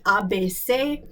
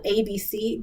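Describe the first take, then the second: First: The letters are said with French letter names. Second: The letters are said with English letter names. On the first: "in the pronunciation of the French language" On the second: "it's spelled A B C"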